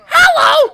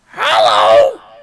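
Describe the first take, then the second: First: It is said in a higher, shriller voice. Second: It is said in a slightly deeper voice.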